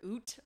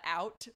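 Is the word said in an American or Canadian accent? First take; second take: Canadian; American. First: The vowel is a mock Canadian 'oo' sound. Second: The vowel is a wide American 'ow' sound. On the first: "but in Canada, I think you're OOT of" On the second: "In America, we call that out"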